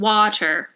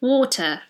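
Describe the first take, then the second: First: It is American with a clearly pronounced T. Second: It is said in a British accent.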